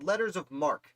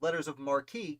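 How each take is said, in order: First: The last word is said as one syllable. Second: The last word is said as two syllables. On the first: The speaker calls it right. "what's called letters of marque" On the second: The speaker calls it wrong. "I've mispronounced most of my life as letters of marquis"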